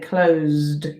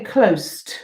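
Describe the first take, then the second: First: The middle consonant is a buzzing Z sound. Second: The middle consonant is a hissing S sound. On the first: The speaker calls it right. "we say closed" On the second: The speaker calls it wrong. "we don't say closed"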